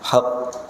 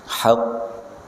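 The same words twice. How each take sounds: First: The final consonant is released quickly. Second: The final consonant is held before release. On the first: The speaker calls it wrong. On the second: The speaker calls it right.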